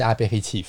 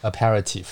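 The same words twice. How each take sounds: First: "Apéritif" in French, a throaty r, stress at the end, final f sounded; "Apéritif" with French stress on the last syllable; French pronunciation. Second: "Aperitif" the English way, stress moved forward, an English r; English pronunciation. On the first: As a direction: say "Apéritif" the French way, ending on a crisp f. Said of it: "法文是Apéritif，你英文怎么念". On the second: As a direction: say "Aperitif" like an English speaker would. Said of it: "就是重音不一样". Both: Shown as a demonstration.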